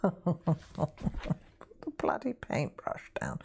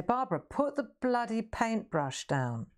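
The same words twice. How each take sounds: First: Slow, hushed whisper of the order; whispered repeat. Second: Higher posh English scolding, lightly imitated; mock a posh art teacher telling her off. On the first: Retold or imitated. Repeating the teacher's posh order to viewers, slow whisper. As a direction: breathe the line slowly as an amused aside. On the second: Posh teacher scolding Barbara to put the brush down, mock stern. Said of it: "She's quite posh".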